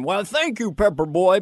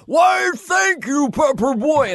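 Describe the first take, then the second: First: Said in the usual way. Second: Huge, high drawn-out shout; wildly overdone high-pitched yell; Chris Farley. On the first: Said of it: "Farley had one line". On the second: Retold or imitated. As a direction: blow the one line up into a slow bellow. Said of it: "on the air show, Chris went".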